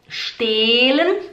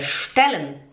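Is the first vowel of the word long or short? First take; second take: long; short. First: The first vowel is held long. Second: The first vowel is said short and quick. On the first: The speaker calls it wrong. "Não é stellen" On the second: The speaker calls it right. "é stellen"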